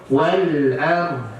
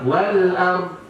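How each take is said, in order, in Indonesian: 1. Konsonan akhir diakhiri dengan bunyi gema yang terdengar jelas. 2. Konsonan akhir dipotong tanpa gema sama sekali. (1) "jangan hilangkan bunyi huruf do-nya" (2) "Mana huruf do-nya? Hilang kan?"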